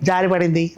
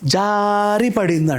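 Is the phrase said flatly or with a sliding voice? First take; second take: flatly; sliding. First: The voice stays flat and plain throughout. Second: The voice slides down as if slipping. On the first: The speaker calls it wrong. "జారి పడింది అన్నద్దు" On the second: The speaker calls it right. "అది జారినట్టు నీ గొంతులో రావాలి"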